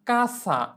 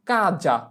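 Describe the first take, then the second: First: The middle consonant is a hissing s sound. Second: The middle consonant is a buzzing z sound. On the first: The speaker calls it wrong. "এখানে এস কে সয়ের মতো উচ্চারণ করা যাবে না" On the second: The speaker calls it right. "আমাদের এস এর উচ্চারণ করতে হবে জ এর মতো"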